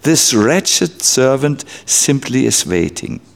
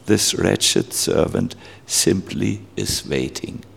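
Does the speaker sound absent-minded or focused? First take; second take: focused; absent-minded. First: It is said with concentration and inner involvement. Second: It is recited mechanically, without inner involvement. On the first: The words are said while attending to their meaning. The speaker calls it right. "chant it for you with the mind involved" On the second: The words are said without attention to their meaning. The speaker calls it wrong. "I just recited it. I was absent-minded. I didn't concentrate"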